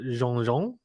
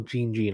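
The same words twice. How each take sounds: First: "Jean Jean" said French-style, zhon-zhon; French pronunciation. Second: "Jean Jean" said as jeen-jeen; anglicised pronunciation. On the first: Tennis predictor trying a player's name, French pronunciation as zhon-zhon for "Jean Jean". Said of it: "I'm assuming it's Jean Jean 'cause it's French". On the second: Tennis predictor offering an alternative reading, anglicised jeen-jeen for "Jean Jean". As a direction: say "Jean Jean" English-style, hard j and long ee. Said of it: "Is that right?". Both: Shown as a demonstration.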